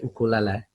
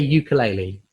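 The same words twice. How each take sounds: First: It is said with a Hawaiian pronunciation. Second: It is said with an English pronunciation. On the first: "you say ukulele" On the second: "As as an English person, I say ukulele"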